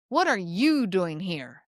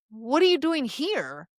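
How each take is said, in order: First: Slow grumpy challenge, weight on "you"; irritated, judgmental. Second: Joyful surprised greeting; surprised, thrilled. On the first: Grumpy store clerk, you're in the wrong place, irritated. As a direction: drip judgment, drawing it out slowly. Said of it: "dripping with irritation and judgment". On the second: Best friend running into you at a coffee shop, thrilled. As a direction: greet a friend with grinning delight. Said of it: "grinning ear to ear, surprised and thrilled". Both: Shown as a demonstration.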